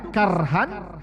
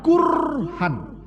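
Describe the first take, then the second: First: The first vowel is an open a sound. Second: The first vowel is a rounded u sound. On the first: The unpleasantness is lighter. "Bisa fathah kafnya" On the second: The unpleasantness is heavier. "bisa damah kafnya"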